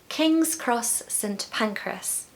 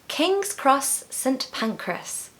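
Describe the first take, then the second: Both takes have the same delivery.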